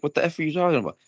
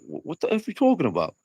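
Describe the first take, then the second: First: It is said in a plain, neutral accent. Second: It is said in a New York accent.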